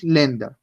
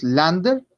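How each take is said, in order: First: Länder said "LEN-da"; Länder with E in the first syllable; with umlaut. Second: Lander with an open "ah"; without umlaut. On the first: Teacher gives the German form, E sound in Länder. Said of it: "sino que decimos Länder". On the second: Teacher shows what not to say, open A in Lander. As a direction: Lander with plain A in the first syllable. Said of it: "no decimos Lander". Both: Shown as a demonstration.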